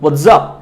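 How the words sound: American accent, ending with a z sound. "আমেরিকানরা exactly হোয়াটসঅ্যাপ, শেষে একটা জ আনে"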